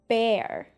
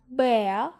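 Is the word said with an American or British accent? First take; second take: American; British. First: American accent, with the r sound pronounced. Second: British accent, with the r sound dropped. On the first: "as American as possible" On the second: "as British as possible"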